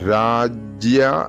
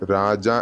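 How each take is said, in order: First: A 'y' glide follows the 'j' sound. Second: No 'y' glide follows the 'j' sound. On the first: The speaker calls it right. "രാജ്യ എന്ന് വരണം" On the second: The speaker calls it wrong. "രാജ എന്നാവരുത്"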